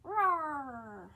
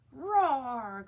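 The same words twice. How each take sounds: First: Roar. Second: Loud dinosaur roar. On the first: Shown as a demonstration. Inviting children to roar along. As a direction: demo roar for kids. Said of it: "Can you make yours?". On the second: A narrator's reading. Froggy playing T-Rex, loud roar. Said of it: "cried Froggy".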